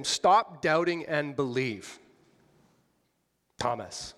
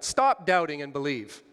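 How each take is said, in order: First: Petulant rebuke. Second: Put-on loud, clipped like a scolding child; a sulky rebuke; petulant rebuke. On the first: To Thomas, Jesus as a petulant child scolding him. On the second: Preacher voicing Jesus to Thomas, mild petulant rebuke. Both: Shown as a demonstration. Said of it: "in a tone sort of like what I just said".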